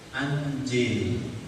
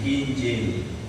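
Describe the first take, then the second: First: The word begins with an 'a' vowel. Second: The word begins with an 'i' vowel. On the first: "Hamzahnya dibaca fat fathah" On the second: "Injil itu dibaca dengan kasroh"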